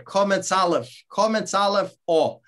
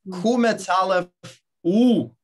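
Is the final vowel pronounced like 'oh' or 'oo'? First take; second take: oh; oo. First: The final vowel sounds like 'oh'. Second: The final vowel sounds like 'oo'. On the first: This is the pronunciation the song teaches. "the correct pronunciation of one particular letter" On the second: This is how a Polish Yiddish speaker says it. "if you are a Polish Yiddish speaker, you would sing the same song, but pronounce it differently"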